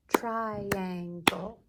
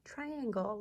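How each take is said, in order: First: "Triangle" in three loud, even beats; syllable by syllable. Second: Said in the usual way. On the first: Shown as a demonstration. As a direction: clap out "Triangle" as TRI, AN, GLE. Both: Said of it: "Let's clap out triangle".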